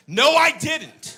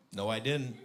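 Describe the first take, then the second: First: High, very loud, stretched shout; yelled denial. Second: Said in the usual way. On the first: Retold or imitated. Dad turning round to daughter, drawn-out loud yell. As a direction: bellow each word slowly at her.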